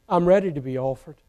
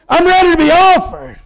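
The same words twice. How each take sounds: First: It is said softly and tenderly. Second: It is declaimed in a loud, forceful preaching style. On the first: The speaker sounds loving and at peace about dying. The speaker calls it right. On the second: The speaker sounds defiant and dramatic about dying. The speaker calls it wrong.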